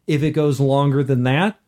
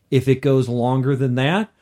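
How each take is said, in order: Both takes have the same delivery.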